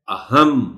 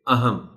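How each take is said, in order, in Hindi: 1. m ध्वनि दोहरी है और उस पर ज़ोर है। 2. m ध्वनि छोटी और एक है। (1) "उस पर जोर देना चाहिए ताकि पता चले कि मीम को शद के साथ बोला जा रहा है" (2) "यहाँ शद को नहीं बोला जा रहा"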